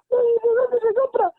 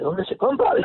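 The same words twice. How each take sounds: First: Slow, much higher and louder, crying; tearful plea. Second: Said in the usual way. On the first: Retold or imitated. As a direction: drag it out through mock sobs. Patient overwhelmed, crying.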